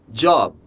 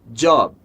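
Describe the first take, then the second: The two takes are said the same way.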